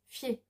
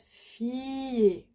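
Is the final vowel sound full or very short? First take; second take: very short; full. First: The final vowel is very short and light. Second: The final vowel is full and clearly drawn out. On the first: The speaker calls it right. "the last E is very small" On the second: The speaker calls it wrong. "It's not fier, nope"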